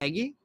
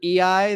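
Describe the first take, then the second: First: The name is said as one two-syllable word. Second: The name is said as two separate letters. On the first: The speaker calls it right. "apparently it's Eggy" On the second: The speaker calls it wrong. "I've been pronouncing uh, Rosario's name E I the entire time"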